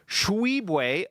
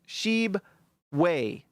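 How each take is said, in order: First: The name is said in a mocked, mangled way. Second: The name is said in a plain, simple way. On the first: The speaker calls it wrong. "according to Bowler" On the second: The speaker calls it right. "Or it's just Sheebway. That's it"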